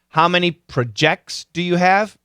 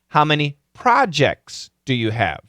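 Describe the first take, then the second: First: 'Projects' has the verb pronunciation. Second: 'Projects' has the noun pronunciation. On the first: The speaker calls it wrong. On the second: The speaker calls it right.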